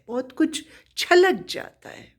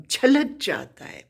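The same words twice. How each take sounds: First: Higher, quick emphatic repeat of छलक. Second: Said in the usual way. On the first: Shown as a demonstration. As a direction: lift the voice on छलक as if it spills out.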